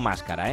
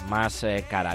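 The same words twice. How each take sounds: First: It is one word, stressed on the first syllable. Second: It is two words, each with its own stress. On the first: It means a mask. The speaker calls it wrong. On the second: It means more expensive. The speaker calls it right.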